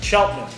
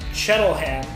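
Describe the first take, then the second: First: The name is said the local way. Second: The name is said the way it looks written. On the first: The speaker calls it right. "but it's Cheltenham. If you the local pronunciation" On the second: The speaker calls it wrong. "when I look at it, I say Chettleham"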